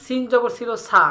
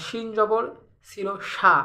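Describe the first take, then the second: First: সা with a thin, plain s; sin pronunciation. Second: সা said as "shaa" with a full sh; shin pronunciation. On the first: Teacher comparing the letters, crisp s for sin. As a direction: end on সা as a clear "saa", never sh. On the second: Teacher comparing the letters, broad sh for shin. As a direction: end on সা with sh in place of s. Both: Shown as a demonstration. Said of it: "পার্থক্যটা কোথায়".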